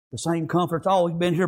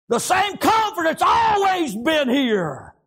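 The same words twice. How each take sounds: First: Said in the usual way. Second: High, drawn-out pulpit cry; impassioned revival shout; shouted preaching. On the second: Real, not acted. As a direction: sing out the words slowly and high, falling at the end. Preacher shouts, then repeats it quietly.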